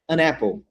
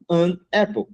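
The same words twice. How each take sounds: First: The n links into the next word. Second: The two words are said separately. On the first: The speaker calls it right. "Você vai pronunciar an apple" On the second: The speaker calls it wrong. "Tu não vai falar an apple"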